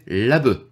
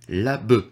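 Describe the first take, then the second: First: It is said with a Japanese pronunciation. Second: It is said with a Japanese pronunciation.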